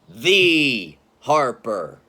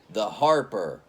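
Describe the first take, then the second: First: The word the carries the stress. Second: The word Harper carries the stress.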